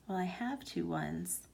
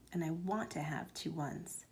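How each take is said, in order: First: Teacher stressing have to show what she already has. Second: Teacher stressing want to show the goal. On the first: Teacher to student, leaning on have to contrast. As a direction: have leaned on, rising at the end. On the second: Teacher to student, leaning on want to contrast. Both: Shown as a demonstration.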